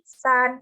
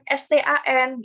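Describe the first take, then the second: First: It is pronounced whole as a single word. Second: It is spelled out one letter at a time. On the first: The speaker calls it right. "pelafalannya itu utuh" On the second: The speaker calls it wrong. "bukan bukan stan gitu"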